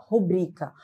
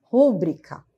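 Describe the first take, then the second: First: Rubrica stressed on the first syllable, RU-brica; wrong stress. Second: Rúbrica with the stress on bri, ru-BRI-ca; rúbrica stressed on the penultimate syllable; correct stress. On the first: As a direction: mimic the informal Rubrica, stress up front. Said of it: "contexto informal acaba ouvindo muito". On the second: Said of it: "a sílaba forte no bri". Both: Shown as a demonstration.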